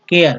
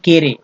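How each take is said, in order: First: The word is said as 'keyar'. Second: The word is said as 'kere'. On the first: The speaker calls it right. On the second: The speaker calls it wrong. "न कि केरे"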